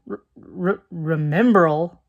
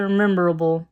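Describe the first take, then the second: First: False starts, then remembrall said slowly; stumbling over remembrall. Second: Remembrall slurred into rememberable; remembrall mispronounced. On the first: Reviewer fighting a hard word, remembrall stumbled out slowly. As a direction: restart and carefully sound out remembrall. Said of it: "I don't like that word. It's hard to say". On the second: Reviewer retelling the broom scene, remembrall mispronounced as rememberable. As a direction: add an extra syllable, making remembrall "rememberable". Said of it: "It's hard to say". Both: Real, not acted.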